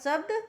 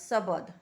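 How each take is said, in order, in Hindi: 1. यह शब्द हिंदी उच्चारण में बोला गया है। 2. यह शब्द नागपुरी उच्चारण में बोला गया है। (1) "हिंदी में बोलब" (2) "नागपुरी में बोलब"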